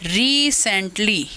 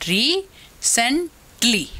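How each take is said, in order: First: Said in the usual way. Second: "recently" very slowly as री, सेन, टली, with pauses; slow teacher sound-out of each syllable in "recently"; split into syllables. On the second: Shown as a demonstration. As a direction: break "recently" into three separate beats. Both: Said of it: "ये ट्राइसिलेबिक के example".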